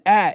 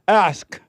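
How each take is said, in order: First: The k sound in the word is missing. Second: The k sound in the word is clear. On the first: The speaker calls it wrong. "she told me you're saying at and" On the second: The speaker calls it right. "I make sure I hit that K"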